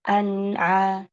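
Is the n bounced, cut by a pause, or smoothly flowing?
flowing. The n flows smoothly into the next sound. The speaker calls it right. "Tapi alirkan"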